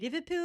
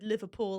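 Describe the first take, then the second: First: It is said in a Scouse accent. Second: It is said in a plain English accent. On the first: "I have to say Liverpool" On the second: "if I ever have to say the word"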